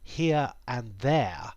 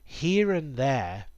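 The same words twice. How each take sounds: First: No R sound links here into and. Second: An R sound links here into and. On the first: "in posh English" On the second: "in R P"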